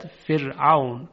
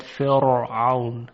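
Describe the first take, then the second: First: فرعون with a thin, light r; correct light r. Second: فرعون with a thick, heavy r; wrong heavy r. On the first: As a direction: say فرعون keeping the r delicate and unthickened. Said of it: "بلکه میگوید". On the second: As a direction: mispronounce فرعون by making the r full and heavy. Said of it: "هیچ عرب زبانی نمیگوید". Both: Shown as a demonstration.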